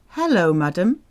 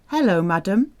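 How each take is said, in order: No difference in how they are said.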